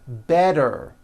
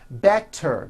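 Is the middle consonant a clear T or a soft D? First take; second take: soft D; clear T. First: The middle consonant is a soft voiced D. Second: The middle consonant is a crisp T sound.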